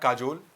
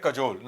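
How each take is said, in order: First: "काजोल" with a long first "aa"; "काजोल", said with an open, long "kaa"; wrong pronunciation. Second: "कजोल" with a short first vowel; "कजोल", light first syllable, long "jol"; correct pronunciation. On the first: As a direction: stretch the first vowel of "काजोल". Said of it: "not काजोल". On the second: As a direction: keep the "ka" of "कजोल" brief. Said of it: "इसे पढ़ेंगे कजोल, not काजोल". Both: Shown as a demonstration.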